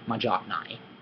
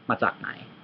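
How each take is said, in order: First: The middle consonant is a soft j sound. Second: The middle consonant is a crisp ts sound. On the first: The speaker calls it wrong. "it's much better than j, jock, majaknai" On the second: The speaker calls it right. "You can say it like this, sock, matsaknai. Yeah, it's, it's correct"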